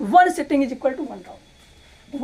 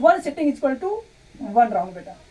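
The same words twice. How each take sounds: First: "One sitting is equal to one round" drawn out very slowly, each word weighted; slow drilled maxim. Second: Said in the usual way. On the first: Shown as a demonstration. Teacher drilling the study rule into students, very slow.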